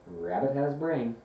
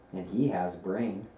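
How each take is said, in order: First: Higher little-creature voice; Piglet. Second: Lightly voiced musing bear; thoughtful Pooh. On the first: Piglet agrees Rabbit has brain, higher-voiced. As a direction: echo it in a small raised voice. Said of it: "said Piglet". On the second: Pooh goes on about Rabbit to Piglet, mildly thoughtful. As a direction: add it as a considered afterthought. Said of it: "said Pooh thoughtfully". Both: A narrator's reading.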